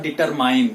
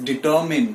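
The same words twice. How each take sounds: First: "determine" ending like MINE; wrong pronunciation. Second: "determine" with a short final MIN; correct pronunciation. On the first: Teacher rejecting the mistake, determine as dee-ter-MINE. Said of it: "it is not determine". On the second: Teacher confirming, determine said dee-TUR-min. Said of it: "The right pronunciation for this word is". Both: Shown as a demonstration.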